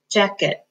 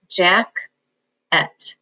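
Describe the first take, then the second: First: "jacket" with first syllable accented, reduced "et"; natural word stress. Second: "jack-et" with both syllables equal, second like "at"; split syllables. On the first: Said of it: "We say jacket". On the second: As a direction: separate the two syllables evenly. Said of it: "you would split between the K and the E". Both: Shown as a demonstration.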